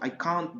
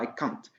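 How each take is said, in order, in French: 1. La voyelle dans can't est longue. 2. La voyelle dans can't est courte. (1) "avec une longue voyelle" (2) "C'est pas I can't. Avec une courte voyelle"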